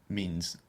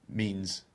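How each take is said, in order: Both takes have the same delivery.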